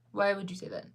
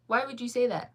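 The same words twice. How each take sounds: First: Said in the usual way. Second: Higher and louder, playfully offended; mock indignant. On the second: Real, not acted. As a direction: push back at the chat, half joking. Reacting to chat calling her sad.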